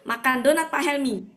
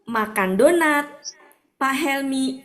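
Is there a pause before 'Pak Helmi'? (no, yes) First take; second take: no; yes. First: It runs on flat with no break. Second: There is a break before the name. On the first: "datar begitu" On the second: "Kan ada sesuatu terputus"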